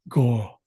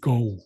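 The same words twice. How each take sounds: First: The vowel sounds unlike the English word go. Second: The vowel sounds like the English word go. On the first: The speaker calls it right. "the proper pronunciation is more like go" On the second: The speaker calls it wrong. "in the improper pronunciation, I'm saying go, like in the English word go"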